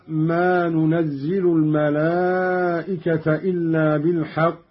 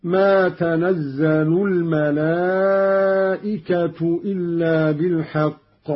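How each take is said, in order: First: ننزل recited as nunazzilu, الملائكة as al-malā'ikata; ننزل with nun, accusative الملائكة; nun reading. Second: تنزل recited as tanazzalu with doubled z, الملائكة as al-malā'ikatu; تنزل with open ta and shadda, nominative الملائكة; Qalun ta reading. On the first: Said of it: "قرأ قالون بالتاء المفتوحة". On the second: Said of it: "والملائكة بالرفع هكذا". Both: Shown as a demonstration.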